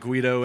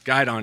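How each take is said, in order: First: It is pronounced like 'Guido'. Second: It is pronounced like 'guide-on'. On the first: The speaker calls it wrong. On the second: The speaker calls it right.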